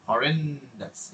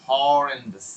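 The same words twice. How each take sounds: First: "horrendous" slow, with a long REN, falling; stretched E. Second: "horrendous" with a long first HAW, falling; stretched O. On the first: Teacher demonstrating vowel stretch, "horrendous" long on the E. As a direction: hold the middle of "horrendous", then fall away. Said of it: "এটাকে টানেন". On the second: Teacher demonstrating vowel stretch, "horrendous" long on the O. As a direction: hold the O of "horrendous", then drop. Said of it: "ওটাকে টানেন". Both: Shown as a demonstration.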